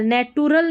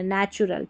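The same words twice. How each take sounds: First: "नेटुरल" with a hard t, nay-tu-ral; wrong pronunciation. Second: "नेचुरल" with ch, nay-chu-ral; correct pronunciation. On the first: Teacher shows what to avoid, "नेटुरल" with t. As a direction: misread natural as "नेटुरल". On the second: Teacher corrects the misreading, "नेचुरल" with ch. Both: Shown as a demonstration. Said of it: "नेटुरल नहीं पढ़ना".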